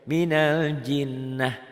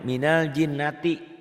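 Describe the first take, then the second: First: The last word ends in a soft 'h' sound. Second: The last word ends in a full 'ti' syllable. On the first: The reader stops at this word. "kalau dihentikan jadi minal jinnah" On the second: The reader continues on without stopping. "enggak dihentikan diwasol, ... apa adanya"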